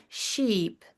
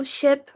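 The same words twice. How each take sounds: First: "sheep" with a long, stretched ee; long vowel. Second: "ship" with a short, lax i; short vowel. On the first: Teacher contrasting vowel length, long ee in "sheep". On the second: Teacher contrasting vowel length, short i in "ship". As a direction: keep the vowel in "ship" brief. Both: Shown as a demonstration. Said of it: "The length of a vowel can change".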